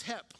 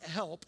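First: "hep" with the l dropped, like "hep"; hep, not help. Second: "help" with the l clearly sounded; help, the wrong way. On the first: Preacher teaching the congregation the churchy way: "hep", l dropped. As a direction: drop the l and say "hep". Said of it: "It's not help". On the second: Preacher showing the congregation the word to avoid: "help" with a full l. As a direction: say "help" fully, l and p both heard. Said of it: "It's not help, it's hep". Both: Shown as a demonstration.

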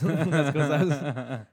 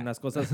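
First: Slow, laughing through the words; louder, drawn out with laughter. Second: Said in the usual way. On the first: Real, not acted. Repeated phrase, laughing through it.

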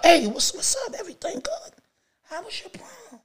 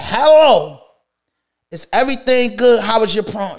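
First: Very high, hushed retold question; timid asking. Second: Raised, full-voiced retold question; firm asking. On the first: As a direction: ask her in a tiny, tentative voice. Retold careful question to girlfriend. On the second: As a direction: ask it straight out, no hushed tiptoeing. Retold question repeated, standing straight up.

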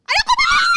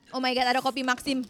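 First: Shouts "Ada kopi Maxim" much higher and louder, breaking into a laugh; thrilled shriek over finding coffee in the box; excited shout. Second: Said in the usual way. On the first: Real, not acted. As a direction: yell out the find in delight.

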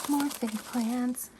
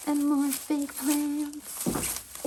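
First: Said in the usual way. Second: Higher, very slow, drawn-out repeat of "more fake plants"; playful repeat. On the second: Shown as a demonstration. Showing a second batch of fake plants, playful drawn-out repeat. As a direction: stretch "more" up high and slow, teasing.

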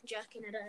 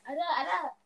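First: Said in the usual way. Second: High, loud insistent denial; loud laughing denial. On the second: Real, not acted.

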